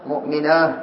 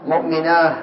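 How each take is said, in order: Both takes have the same delivery.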